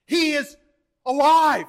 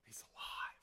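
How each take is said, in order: First: High, loud pulpit proclamation; exultant full-force preaching cry; triumphant shout. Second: Whispered awe after the climax; very soft, unvoiced pulpit hush. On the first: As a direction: shout the good news, hitting "alive". Climax of the resurrection proclamation. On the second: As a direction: breathe it out in a near-silent whisper. Hushed repeat after the shout. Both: Real, not acted.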